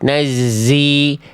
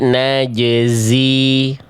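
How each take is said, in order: First: The j sound turns into a z sound. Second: Both the j and z sounds are clear. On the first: The speaker calls it wrong. "jimnya yang ke bawah jadi huruf zai" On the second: The speaker calls it right. "Clear bunyi zai-nya tanpa mengganggu jim sukunnya"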